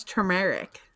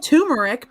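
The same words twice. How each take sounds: First: Turmeric said ter-MARE-ick; turmeric with an R-coloured first syllable; R pronounced. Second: Turmeric said TOO-mer-ick, no first R; turmeric with a plain "too" at the front; R dropped. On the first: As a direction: sound the first R in turmeric, "tur". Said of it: "so it's turmeric". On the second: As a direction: say turmeric as "toomeric", losing the R. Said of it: "it's not turmeric because there's an R". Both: Shown as a demonstration.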